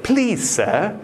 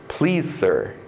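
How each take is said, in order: First: Put-on high-pitched, polite British accent; mock-British politeness, pitched up. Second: Said in the usual way. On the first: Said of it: "my inner voice turns British". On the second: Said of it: "the objection sounds very polite".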